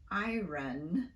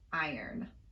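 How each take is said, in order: First: The R sound comes before the vowel. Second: The R sound comes after the vowel. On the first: This is the older way of saying it. "the pronunciation of iron became" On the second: This is the later way of saying it. "became iron"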